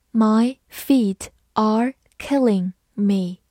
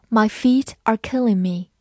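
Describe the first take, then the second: First: "My feet are killing me" word by word; slowly, a gap between each word; slow model reading. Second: Said in the usual way. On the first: Shown as a demonstration. Teacher models an idiom for learners, slow model reading.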